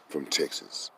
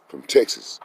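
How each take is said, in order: First: Quiet, put-on white Texan voice for "from Texas"; mock white Texan. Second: Said in the usual way. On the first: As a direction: lightly imitate a white man saying "from Texas". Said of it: "trying to sound like a white man". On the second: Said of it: "I still sound like a black man".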